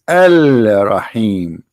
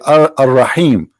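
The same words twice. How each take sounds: First: A clear L sound comes before Rahim. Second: The L blends into the R sound. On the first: The speaker calls it right. "but the fact it is Al Rahim" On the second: The speaker calls it wrong. "They say Al Rahim because this is how it's pronounced"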